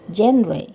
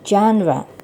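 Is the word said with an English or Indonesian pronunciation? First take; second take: Indonesian; English. First: It is said with an Indonesian pronunciation. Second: It is said with an English pronunciation. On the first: This is how the word is said in Indonesian. "dalam bahasa Indonesia menyebutnya genre" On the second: This is how the word is said in English. "Bahasa Inggrisnya genre"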